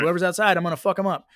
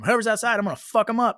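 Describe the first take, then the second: First: The line is delivered flatly, without anger. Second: The line is delivered with more anger.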